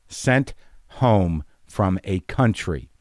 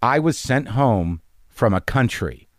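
First: "Sent" and "home" set apart by pauses; slow, weighty stress on "Sent" and "home"; word-by-word emphasis. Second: Said in the usual way. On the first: Real, not acted. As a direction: land "Sent", pause, "home", then slowly "from a country".

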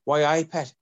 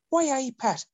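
First: Demonstrated Geordie, higher and louder; firm Geordie catchphrase, pitched up; corrective Geordie accent. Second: Squeaky, very high Irish-tinged Geordie; hammed-up bad Geordie with Irish lilt; failed Geordie turned Irish. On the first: Retold or imitated. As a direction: show them the proper Geordie way. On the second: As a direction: get Geordie hopelessly wrong, sounding Irish. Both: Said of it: "No, you're doing Irish".

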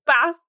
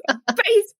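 First: Bass said with a short A, like the fish; BASS rhyming with mass. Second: Bass said with a long A, like "base"; BASS rhyming with face. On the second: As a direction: say bass as in bass guitar. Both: Shown as a demonstration. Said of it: "bass, whatever".

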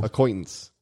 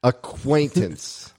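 First: Acquaintance said quickly and softer, "quaint" slipping toward "coin"; fast, slurred pronunciation. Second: ACQUAINTANCE drawn out very slowly, long A in the middle; slow careful pronunciation. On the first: Speaker shows he can't say it fast, Acquaintance rushed. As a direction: rush Acquaintance so the long A gets lost. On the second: Corrected speaker tries the hard word, Acquaintance slowly enunciated. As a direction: sound out Acquaintance slowly and higher, with a clear "quaint". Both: Shown as a demonstration. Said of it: "I can't say it fast".

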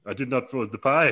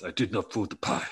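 First: A light mock Dutch accent on "I did not throw the pie". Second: A light mock Italian accent on "I did not throw the pie". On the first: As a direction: deny it in a hammed-up Dutch accent. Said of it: "'cause he's Dutch". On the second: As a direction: deny it in a hammed-up Italian accent. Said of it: "'cause he's Italian now".

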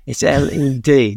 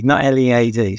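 First: L E D spelled out letter by letter, slowly; slow, firm spelling of "L E D"; spelling it out right. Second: L E A D spelled letter by letter as the wrong version; name the wrong spelling "L E A D", letter by letter; contrasting "L E A D" as the mistake. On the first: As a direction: spell out "L E D" with care. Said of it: "No, you spelled it wrong". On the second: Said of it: "you spelled it wrong". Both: Retold or imitated.

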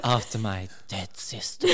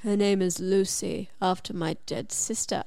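First: Mock sexy repeat. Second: Low, soft seductive farmer; sexy farmer voice. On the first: Mocking the sexy line, laughing. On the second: Retold or imitated. Farmer telling her his dog's name, lightly voiced low and seductive. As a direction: purr it low like a romance hero, a hint of sexy. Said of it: "You said that so sexily".

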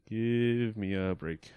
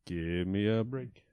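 First: Slow, drawn-out ad tagline; mock ad jingle. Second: Slow, drawn-out ad tagline; sing-song it like an ad; mock ad jingle. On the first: Repeating the mock ad slogan, slow and drawn out. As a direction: stretch the slogan out slowly. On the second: Mock ad slogan for the spider break, slow and drawn out.

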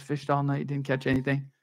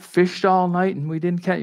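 First: Put-on softly half-sung children's Sunday school tune; sung, kids' song. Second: Said in the usual way. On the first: Shown as a demonstration. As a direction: lightly sing it like the kids' song. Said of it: "the song that you teach your kids". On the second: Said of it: "Nah, another night".

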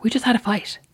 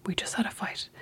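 First: Said in the usual way. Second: Much softer, breathy whispered echo; soft whispered repeat. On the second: Retold or imitated. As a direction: mutter it under your breath, mocking. Whispered echo of his words.

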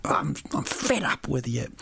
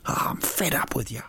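First: Mock angry. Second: Hammed-up frustrated whisper; mock angry whisper. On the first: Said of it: "eat it angrily". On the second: Host acting angry at his own fruit face, whispering. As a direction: hiss it at yourself in mock fury. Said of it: "when you're really angry with yourself".

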